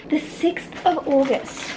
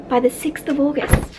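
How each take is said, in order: First: "The sixth of August" slowly, each word weighed; disbelieving emphasis. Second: Said in the usual way. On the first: Real, not acted. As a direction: let it sink in how soon "sixth of August" is. Repeats the date for emphasis.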